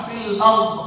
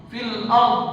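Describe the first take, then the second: Both takes have the same delivery.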